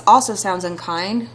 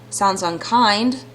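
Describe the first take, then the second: First: "Also" prominent, then "sounds unkind" rising; stress on also. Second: Slow "Sounds unkind" with "unkind" drawn out and rising; stress on unkind. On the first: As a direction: punch "Also" first. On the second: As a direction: lean into "unkind", slowly. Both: Shown as a demonstration.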